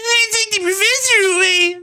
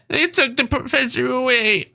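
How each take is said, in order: First: It is said in a put-on voice for Jovi. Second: It is said in the speaker's own voice.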